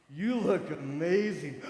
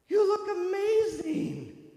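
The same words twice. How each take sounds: First: Slow, low, manly praise; imitating a man's smooth compliment; deep male compliment. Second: High, slow, breathy-sounding gush; mock gushing high praise; gushing compliment. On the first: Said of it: "could look at you and go". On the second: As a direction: gush over her makeup like a saleslady.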